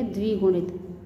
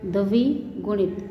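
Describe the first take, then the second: First: Said in the usual way. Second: द्विगुणित slowly as "da-vi ... gunit"; split syllables. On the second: Shown as a demonstration. Teacher breaking down the conjunct, द्विगुणित split slowly. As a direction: pull apart द्विगुणित. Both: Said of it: "इसे बोलेंगे".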